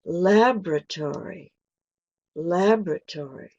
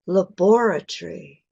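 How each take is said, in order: First: American laboratory stressed on lab, with a full tory ending; American pronunciation. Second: British laboratory stressed on bor, ending in tree; British pronunciation. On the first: Teacher contrasting British and American English, American. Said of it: "in an American way". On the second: Teacher contrasting British and American English, British. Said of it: "is British". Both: Shown as a demonstration.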